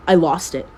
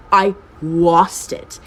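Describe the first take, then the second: First: Said in the usual way. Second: "lost" stretched out slowly; drawn-out emphasis. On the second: Shown as a demonstration. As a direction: lean long and hard on "lost". Slow repeat for emphasis.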